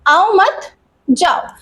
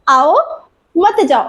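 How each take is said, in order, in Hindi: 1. विराम दूसरे शब्द, mat के बाद आता है। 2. विराम पहले शब्द, aao के बाद आता है। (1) "आओ मत यानी कॉमा लग गया मत के बाद" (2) "यहाँ पे लगा देती हूँ कॉमा"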